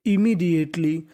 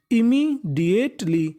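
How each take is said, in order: First: Said in the usual way. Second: इमीडिएटली drawn out slowly, syllable by syllable; slow syllable-by-syllable read. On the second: Shown as a demonstration. Teacher to Hindi-speaking students, sounding out इमीडिएटली slowly, syllable by syllable. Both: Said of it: "teacher builds the word from its spelling".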